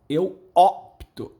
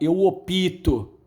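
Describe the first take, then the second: First: The p and t are said together directly. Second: An extra i vowel separates p and t. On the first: The speaker calls it right. "a pronúncia correta é eu, eu opto" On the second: The speaker calls it wrong. "Muita gente fala eu opito"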